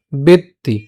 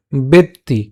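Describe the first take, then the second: No difference in how they are said.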